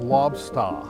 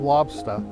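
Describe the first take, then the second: First: The word ends in a drawn-out, breathy 'ah'. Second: The word ends in a short, plain 'a' vowel. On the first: "it comes out lobster. So it's almost like a ah at the end" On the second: "instead of lobster"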